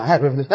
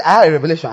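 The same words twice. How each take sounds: First: Repeated mock claim, dropping back in volume; softer echoed mockery. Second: Louder mock-proud claim of revelation; mocking a boaster. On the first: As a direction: echo the boast more quietly. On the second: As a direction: parody the eager show-off, stressing "had". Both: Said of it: "stand up and say".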